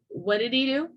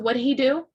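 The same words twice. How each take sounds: First: The h is dropped, linking 'did' to 'e'. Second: The h in 'he' is clearly pronounced.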